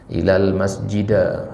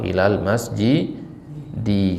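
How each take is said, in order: First: The last word ends with an 'a' vowel. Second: The last word ends with an 'i' vowel. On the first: The speaker calls it wrong. "Yunus mengatakan zahabtu ilal masjida" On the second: The speaker calls it right. "Seharusnya apa? ... karena ilah huruf jar"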